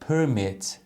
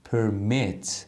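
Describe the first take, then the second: First: The stress is on the first syllable. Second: The stress is on the second syllable. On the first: It is a noun meaning permission. "اگه اسم باشه استرسش میاد قسمت اول کلمه" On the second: It is a verb meaning to allow. "اگه فعل باشه استرس قسمت دوم کلمه هست"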